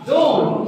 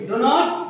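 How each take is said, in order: First: It is said as one contracted syllable. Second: It is said as two full words. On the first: The speaker calls it right. "সে বলে কি ডোন্ট" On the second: The speaker calls it wrong. "ডু নট বলে না"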